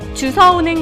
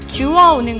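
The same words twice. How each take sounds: First: The middle consonant is an s sound. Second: The middle consonant is a w sound. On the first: The speaker calls it wrong. "주서가 아니라" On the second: The speaker calls it right. "표준어는 주서가 아니라 주어입니다"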